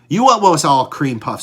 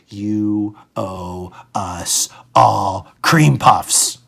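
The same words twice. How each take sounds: First: It is said at a normal pace. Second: It is said slowly and clearly.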